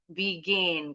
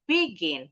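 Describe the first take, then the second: First: The stress is on the second syllable. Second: The stress is on the first syllable. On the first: The speaker calls it right. "intonasinya lebih tinggi tuh di suku kata kedua" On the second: The speaker calls it wrong. "Jadi bukan begin, bukan"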